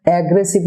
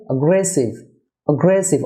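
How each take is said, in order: First: "অ্যাগ্রেসিভ" opening on a full "ae"; common mispronunciation. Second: "অ্যাগ্রেসিভ" opening on a weak "a"; correct pronunciation. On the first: Teacher shows viewers the mistake, "অ্যাগ্রেসিভ" with initial "ae". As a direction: say "অ্যাগ্রেসিভ" as ag-gre-siv. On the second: Teacher models the correction, "অ্যাগ্রেসিভ" as uh-GRE-siv. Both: Shown as a demonstration. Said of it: "অর্থাৎ এ এর উচ্চারণ হবে আ".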